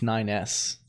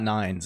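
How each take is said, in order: First: The name is said as nine, then the letter S. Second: The name is said as one word, nines. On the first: The speaker calls it right. "It's nine S" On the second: The speaker calls it wrong. "It's not nines"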